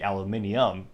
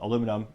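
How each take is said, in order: First: It is said the British way, five syllables. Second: It is said the American way, four syllables.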